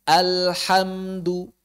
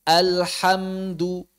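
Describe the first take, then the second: Both takes have the same delivery.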